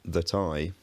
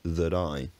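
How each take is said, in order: First: The t is a full, clear stop. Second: The t is a quick tap. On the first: "Instead of saying that I" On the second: "I say that I"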